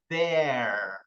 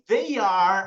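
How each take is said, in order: First: It is said as one contracted syllable. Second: It is said as two full separate words.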